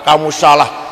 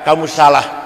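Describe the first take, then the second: The two takes are said the same way.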